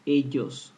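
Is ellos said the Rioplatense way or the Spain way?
Spain. It uses the Spain and wider Latin American pronunciation. "While in Spain, they and the most other Latin American countries, they pronounce it ellos"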